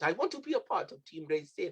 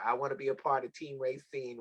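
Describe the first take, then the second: First: A hint of a Jamaican lilt, pitched higher; mock Jamaican accent. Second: Said in the usual way. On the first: Host imitating young Krilios asking to join, mock Jamaican accent. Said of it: "Not that being my accent". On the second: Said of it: "with this accent".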